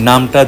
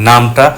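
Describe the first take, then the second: No difference in how they are said.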